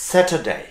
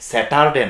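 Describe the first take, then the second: First: "স্যাটারডে" high, as sat-uh-day; only touch the R in "স্যাটারডে"; faint R. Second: "স্যাটারডে" as sa-TAR-day; wrong hard R. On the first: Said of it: "খুব খানিকটা touch". ("স্যাটারডে"-তে র সামান্য ছোঁয়া) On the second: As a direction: sound a full A and R in "স্যাটারডে". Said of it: "স্যাটারডে না". ("স্যাটারডে"-তে টার স্পষ্ট করে) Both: Shown as a demonstration.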